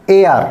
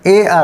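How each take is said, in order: The two takes are said the same way.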